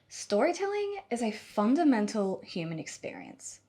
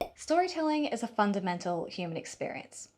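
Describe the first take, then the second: First: It is said with clear emotion and passion. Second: It is said flatly, without much emotion.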